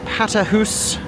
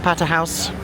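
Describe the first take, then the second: First: The last syllable rhymes with 'goose'. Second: The last syllable rhymes with 'mouse'. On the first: It is the Scottish way of saying it. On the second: It is the non-Scottish way of saying it.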